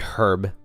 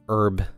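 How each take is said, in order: First: The word starts with an h sound. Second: The word starts without an h sound. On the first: The speaker calls it right. "when it's clearly herb" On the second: The speaker calls it wrong. "why do Americans pronounce herb"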